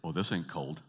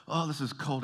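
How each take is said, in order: First: Lower-pitched, unimpressed mock Canadian; imitated smug dismissal, pitched down; nonchalant Canadian boast. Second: High-pitched mock complaint about the cold; pitched-up, put-on shivery grumble; complaining about cold. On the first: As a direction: brush off the cold with relish. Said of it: "get this thrill up their leg to say". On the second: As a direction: whine theatrically as a freezing visitor. Visitor suffering in Canadian cold.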